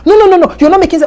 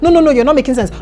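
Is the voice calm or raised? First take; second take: raised; calm. First: The voice is raised and louder. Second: The voice is at a normal level.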